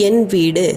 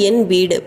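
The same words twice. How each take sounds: Both takes have the same delivery.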